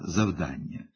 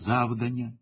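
First: The stress is on the second-to-last syllable. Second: The stress is on the first syllable. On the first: The speaker calls it right. "Всі вони повинні наголошуватися на передостанньому складі" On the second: The speaker calls it wrong. "неграмотно ставлячи наголос на першому складі"

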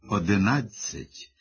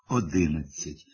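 First: The stress is on the third syllable. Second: The stress is on the second syllable. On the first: The speaker calls it right. "правильного «одинадцять» з наголосом на третьому складі" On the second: The speaker calls it wrong. "наголошуючи другий склад"

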